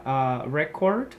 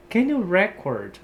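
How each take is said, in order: First: Slow, REcord stressed on first syllable; noun stress. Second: Slow, record stressed reCORD; verb stress. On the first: Teacher showing students the noun record slowly. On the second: Teacher modelling the verb record for students. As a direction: stress the second syllable of record. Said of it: "no sentido de gravar". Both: Shown as a demonstration.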